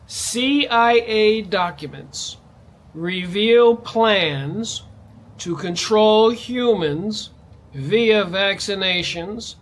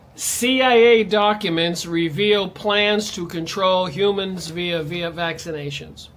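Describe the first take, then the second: First: The sentence is read slowly. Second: The sentence is read quickly. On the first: "I'll read it slowly" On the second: "I'm going to go through this really quick"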